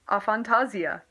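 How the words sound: It is pronounced in a British-style way. "I guess that's British people"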